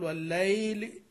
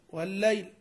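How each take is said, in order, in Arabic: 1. الحركة الوسطى ممدودة طويلة. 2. الحركة الوسطى قصيرة، من غير مد. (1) "ما تحتاج تقول والليل. والذي يتكلف المد فيها مخطئ" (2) "تقول والليل"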